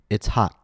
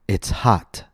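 First: The T in hot is stopped in the throat. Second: The T in hot is released with air. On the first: "an American might say" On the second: "Instead of saying"

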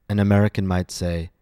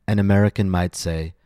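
The two takes are said the same way.

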